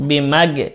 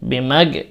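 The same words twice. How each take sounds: No difference in how they are said.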